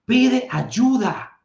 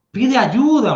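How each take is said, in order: First: Pide ayuda stretched out very slowly, higher; slow drawn-out advice. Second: Emphatic advice. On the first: Repeating the advice to viewers, slow and drawn out. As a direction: drag out each word of pide ayuda. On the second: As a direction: punch ayuda like a command. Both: Shown as a demonstration.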